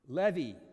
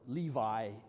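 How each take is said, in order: First: The name is said the Hebrew way. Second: The name is said the English way. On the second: "I'm going to confuse that with the gene maker"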